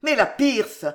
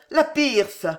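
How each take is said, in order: First: Put-on Nucingen's German-accented exclamation about "la Pierce", "Pierce" said like "piʀs"; a worried banker thinking of the stock exchange, in a German accent; first cry of "la Pierce" in a German accent. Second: Put-on "la Pierce!" cried out higher than the first time, German accent; alarmed German accent. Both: A narrator's reading. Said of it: "s'écria le baron".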